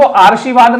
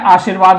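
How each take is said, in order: First: "आरशीवाद" with the r sound before शी; wrong pronunciation. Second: "आशीर्वाद" with the r after शी, before वाद; correct pronunciation. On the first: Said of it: "शब्द जो है वो आरशीवाद नहीं होता है". (गलत उच्चारण आरशीवाद, र शी से पहले) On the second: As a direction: say it right, र after शी. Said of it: "आशीर्वाद होता है". (सही उच्चारण आशीर्वाद, र शी के बाद) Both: Shown as a demonstration.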